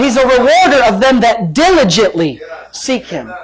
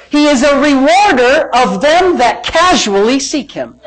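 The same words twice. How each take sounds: First: "diligently" stretched and punched as the correction; stress on diligently. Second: "casually" leaned on as a deliberate misquote; stress on casually. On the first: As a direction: lean hard on "diligently", then drop on "seek him". Corrects the misquote with right word. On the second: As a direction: punch "casually" as the wrong word. Deliberate misquote, corrected right after. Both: Shown as a demonstration.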